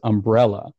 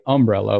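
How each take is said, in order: First: The stress is on the 'el' syllable. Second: The stress is on the 'um' syllable.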